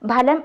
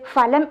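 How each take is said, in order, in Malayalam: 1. ഈ വാക്ക് ശ്വാസമുള്ള 'p' ശബ്ദത്തിലാണ് തുടങ്ങുന്നത്. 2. ഈ വാക്ക് 'f' ശബ്ദത്തിലാണ് തുടങ്ങുന്നത്. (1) "ഫലം എന്ന് തന്നെ ഉപയോഗി ഉച്ചരിക്കണം" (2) "ഫലം എന്നല്ല"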